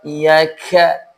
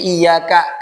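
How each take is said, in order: First: The k releases a strong puff of air. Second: The k releases only a little air. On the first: The speaker calls it wrong. "jangan dibaca dengan lafaz iyyaka" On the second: The speaker calls it right. "ka-nya biasa"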